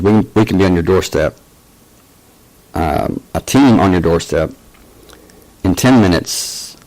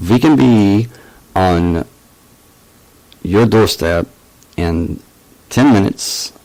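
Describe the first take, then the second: First: Said in the usual way. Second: Halting mock German accent, punched openings. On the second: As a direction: amateurish imitation of a German-accented agent. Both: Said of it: "gonna stop the German accent".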